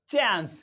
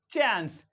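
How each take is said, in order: The two takes are said the same way.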